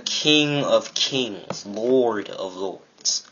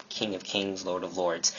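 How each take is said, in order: First: Very slow, drawn-out declaration; grand proclamation. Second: Softer, matter-of-fact aside; understated, soft repeat of the titles; quiet restatement. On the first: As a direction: stretch each title out with weight. Proclaims God's titles emphatically. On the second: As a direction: say it low-key and softly. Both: Real, not acted.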